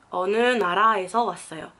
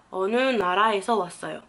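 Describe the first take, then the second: No difference in how they are said.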